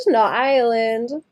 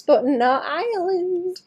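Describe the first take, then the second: First: Not drawn out slow; slow teasing Not island; stress on not. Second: Island stretched slowly high; slow teasing stress. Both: Real, not acted.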